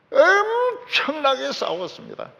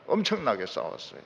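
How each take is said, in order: First: 엄청나게 stretched high and slow, falling hard; emphatic preaching. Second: 엄청나게 said low and soft, an afterthought; quiet aside. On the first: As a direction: lift 엄청나게 high, then drop. (엄청나게를 높고 길게 강조) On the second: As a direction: drop the voice on 엄청나게 싸웠어요. (엄청나게를 낮고 조용하게) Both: Shown as a demonstration.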